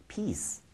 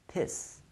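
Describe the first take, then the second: No difference in how they are said.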